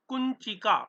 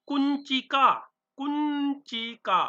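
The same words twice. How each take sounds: First: Said in the usual way. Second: कुंचिका said higher and slower, kun-chi-ka; model pronunciation. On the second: Shown as a demonstration. Teacher demonstrating कुंचिका to the class, high and slow. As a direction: lift and stretch कुंचिका for pupils to copy. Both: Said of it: "उच्चारण करते रहना".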